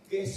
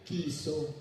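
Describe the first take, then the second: First: The first vowel sounds like 'e'. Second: The first vowel sounds like 'i'. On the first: The speaker calls it right. "Keso yun, hindi kiso" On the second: The speaker calls it wrong. "yung E, i- pinopronounce as I, di ba, sa Bisaya"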